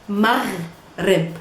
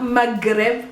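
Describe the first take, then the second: First: Maghrib with a throaty gh; gargled gh in maghrib; correct maghrib. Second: Maghrib said with a hard g, slow; wrong maghrib. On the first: Teacher showing the right maghrib. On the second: Teacher showing the wrong hard-g maghrib. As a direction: maghrib with a plain g. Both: Shown as a demonstration. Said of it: "not maghrib".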